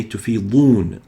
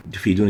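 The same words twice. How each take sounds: First: Tufidun with a heavy emphatic d; correct emphatic dad. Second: Tufidun with a light front d; wrong plain dal. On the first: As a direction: tufidun said slowly, d pulled back. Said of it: "You should say". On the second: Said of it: "is wrong". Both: Shown as a demonstration.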